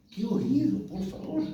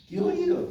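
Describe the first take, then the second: First: "¡Qué oído" rising at "oído", lifted in awe; admiring exclamation. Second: "¡Qué oído!" with "Qué" punched much higher and louder; emphatic exclamation. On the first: Pastor praising his father's listening, admiringly. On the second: Pastor repeating his praise of his father, emphatically. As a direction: burst out in admiration, hitting "Qué" hard. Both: Real, not acted.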